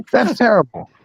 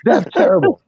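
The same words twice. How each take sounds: First: Said in the usual way. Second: Much higher, squeaked That's terrible; high mock disgust. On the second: Real, not acted.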